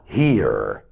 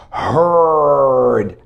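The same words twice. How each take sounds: First: Hear said like here, with the long ee; wrong form. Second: Heard said as herd, rhyming with bird, drawn out; correct pronunciation. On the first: Teacher warning students against the mistake. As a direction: contrast hear with Heard. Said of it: "not hear". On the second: Teacher showing students the right past form. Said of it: "You must just pronounce it this way". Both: Shown as a demonstration.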